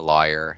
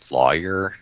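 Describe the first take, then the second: First: The word is drawn together, sounding like liar. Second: The word is carefully enunciated in full. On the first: "it sounds like I'm saying I'm a liar" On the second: "I have to consciously like enunciate lawyer"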